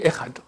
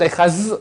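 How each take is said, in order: First: The word ends with a plain d sound. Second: The word ends with a z sound. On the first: The speaker calls it right. "donc on dit Echad, c'est tout" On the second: The speaker calls it wrong. "Echaz avec un Zayn, c'est pas valable"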